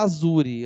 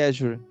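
First: Azure is pronounced the Italian way. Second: Azure is pronounced a non-Italian way. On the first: "Eu prefiro falar Azure. ... como Azure é italiano" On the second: "Algumas pessoas só entendem Azure"

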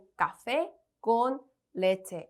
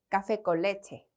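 First: Each word is said separately with short pauses. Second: The words run together smoothly without pauses. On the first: The speaker calls it wrong. "이렇게 다 한 단어 한 단어 한 단어 한 템포씩 쉬면서 말하지 않고요" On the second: The speaker calls it right. "쭉 연결해서 이 단어를 읽어보도록 하겠습니다"

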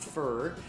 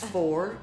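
First: The word has a reduced 'ur' vowel. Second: The word has a full, rounded 'or' vowel. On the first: The speaker calls it wrong. "not fur" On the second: The speaker calls it right. "It's for"

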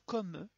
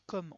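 First: The final e is pronounced. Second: The final e is silent. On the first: The speaker calls it right. "Donc ils vont se prononcer. ... on va dire comme" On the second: The speaker calls it wrong. "on va pas dire comme"

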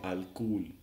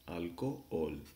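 First: The two O sounds run together as one. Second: The two O sounds are split by a pause. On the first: The speaker calls it wrong. "you can't say alcohol" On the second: The speaker calls it right. "you have to pronounce these two O's separately"

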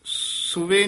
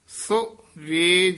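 First: It is said as one joined word. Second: It is said as two separate words. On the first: The speaker calls it wrong. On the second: The speaker calls it right.

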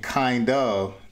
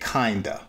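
First: It is said as two separate full words. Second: It is shortened to one blended word. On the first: "Instead of saying kind of" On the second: "they say kinda"

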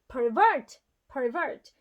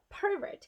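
First: The stress is on the second syllable. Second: The stress is on the first syllable. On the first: It is a verb. "강세가 뒤에 있으면 대부분 동사예요" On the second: It is a noun. "명사 pervert. … 강세가 앞에 있으면은 명사고"

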